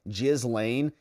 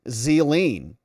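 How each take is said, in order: First: The name begins with a J sound. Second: The name begins with a Z sound. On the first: The speaker calls it wrong. "can you please not pronounce her name" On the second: The speaker calls it right. "It's pronounced Zeline"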